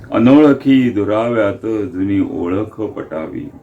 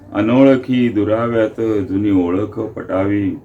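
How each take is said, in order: Both takes have the same delivery.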